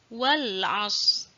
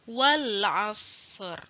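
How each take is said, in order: First: The word stops early, dropping the final consonant. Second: The final consonants are both clearly sounded. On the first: The speaker calls it wrong. "seperti itu juga kurang tepat ya" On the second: The speaker calls it right. "Jadi terdengar jelas huruf shad dan huruf ra-nya"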